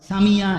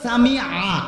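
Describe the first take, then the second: First: The consonant is a y sound. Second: The consonant is a throat ain sound. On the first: The speaker calls it wrong. "সামিয়া এটা তো ইয়া" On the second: The speaker calls it right. "শব্দটা হলো সামি আ, আইন"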